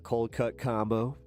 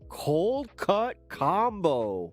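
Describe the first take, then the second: First: It is said in his normal voice. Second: It imitates the Happy Gilmore movie delivery.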